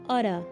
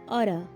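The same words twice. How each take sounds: First: The middle consonant sounds like a d. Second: The same.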